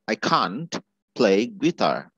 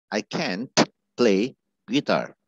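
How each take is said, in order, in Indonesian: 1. 'Can't' diucapkan dengan aksen Inggris. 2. 'Can't' diucapkan dengan aksen Amerika.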